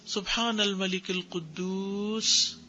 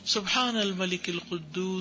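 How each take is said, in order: First: It is said slowly and drawn out. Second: It is said at normal length.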